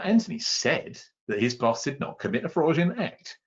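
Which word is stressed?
said. The word said carries the stress. He claimed it, but probably it happened anyway. "clearly he said he didn't do it, but probably did"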